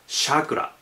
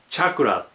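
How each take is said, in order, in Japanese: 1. この単語は'sh'の音で始まる。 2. この単語は'ch'の音で始まる。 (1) "人によってはシャクラっていうふうに発音しますね" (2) "英語ではチャクラと言ったり"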